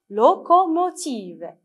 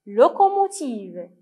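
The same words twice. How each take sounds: First: "locomotive" slow and higher, as LO, CO, MO, TIVE; syllable by syllable. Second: Said in the usual way. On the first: Shown as a demonstration. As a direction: give each syllable of "locomotive" its own beat. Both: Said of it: "lisez avec moi".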